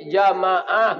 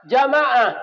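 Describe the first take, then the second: First: Said in the usual way. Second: Jamaah called out high and loud; preacher calling Jamaah out to the congregation, high and loud. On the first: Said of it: "Jadi bapak pengurus masjid". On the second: Real, not acted. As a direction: call Jamaah out to the whole congregation. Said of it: "harus giat membangunkan jamaah".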